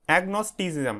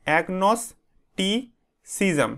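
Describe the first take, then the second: First: Said in the usual way. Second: "agnosticism" very slowly in pieces, agnos - ti - cism; broken into syllables. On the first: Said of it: "এটা উচ্চারণটা কীভাবে করবে দেখো". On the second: Shown as a demonstration. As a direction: split "agnosticism" with long pauses between the parts. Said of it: "সিলেবেলে ভাগ করে নেবে এটাকে". ("agnosticism" ভেঙে ভেঙে, খুব ধীরে, থেমে থেমে উচ্চারণ)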